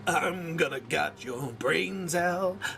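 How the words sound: It is said in an angry tone. "you gotta go angry"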